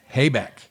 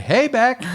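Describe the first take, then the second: First: Said in the usual way. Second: Very high, loud "Hey, Beck"; high-pitched catchphrase hello; gag greeting. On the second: Shown as a demonstration. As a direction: shoot the voice way up and call it out.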